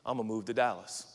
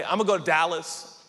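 First: Low, modest statement of a plan; humbly submitted plan. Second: Brash, self-assured declaration; presumptuous announcement. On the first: Planner defers to what God wants, humble and low-key. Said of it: "you ought to talk like this". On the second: Planner tells everyone about moving, cocky and certain. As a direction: announce the plan as already settled. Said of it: "you can't talk like that". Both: Acted.

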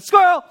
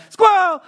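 First: Playful squirrel call. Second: Much higher, louder shout of the word Squirrel; dog's sudden yelp. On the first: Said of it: "All of a sudden, squirrel". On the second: Doug the dog in Up suddenly spotting a squirrel, shrieking. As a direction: blurt it like a dog seeing a squirrel. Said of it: "He's distracted by". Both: Retold or imitated.

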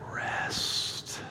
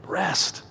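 First: Long breathy exhaled whisper of Rest; whispered, drawn out. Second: Rest said quietly with a falling close; soft rest. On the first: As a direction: let Rest linger on the outbreath, whispered. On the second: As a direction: let Rest fall away gently. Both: Shown as a demonstration. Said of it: "say it slowly and quietly".

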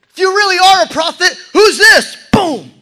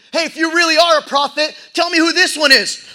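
First: Much louder, higher, faster jeer; shouted taunt. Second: Loud, high jeer; jeering taunt. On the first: Soldiers scream mockery at the prisoner, shouting. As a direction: yell it right in his face. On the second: Soldiers taunt the beaten prisoner, loud and jeering. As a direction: sneer at the prisoner. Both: Acted.

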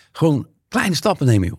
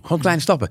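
First: Gentle advice. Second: Softer, higher repeat. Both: Retold or imitated. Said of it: "dan zegt eigenlijk de".

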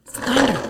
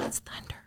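First: Said in the usual way. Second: It's thunder whispered, spooky. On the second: Shown as a demonstration. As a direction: breathe It's thunder in a hush. Repeated as a spooky hush.

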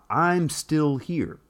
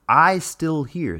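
First: Said in the usual way. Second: "I still here" said slowly, with no "I'm"; dropped contraction. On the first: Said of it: "let's take the phrase". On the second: Shown as a demonstration. Explaining her speech to viewers, says "I still here" slowly. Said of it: "[name] might say".

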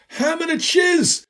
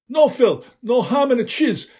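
First: Put-on much higher, slow, louder Italian accent on ham and a cheese; emphatic Italian accent. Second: Put-on louder, higher Italian accent correcting him. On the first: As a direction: spell it out slowly in a heavy Italian accent. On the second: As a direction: insist in a heavy Italian accent. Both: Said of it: "an accent you could pour over a plate of spaghetti".

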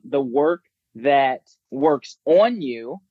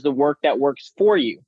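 First: Slow, with weight on "on"; stress on ON. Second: "for" made the most prominent word; stress on FOR. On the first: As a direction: set "on" apart as the key word. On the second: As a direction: lean on "for" as the contrasting word. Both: Real, not acted. Contrasts two types of work.

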